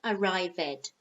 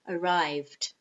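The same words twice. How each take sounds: First: The ending adds an extra syllable. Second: The ending adds no extra syllable. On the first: The speaker calls it wrong. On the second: The speaker calls it right. "do not add a syllable"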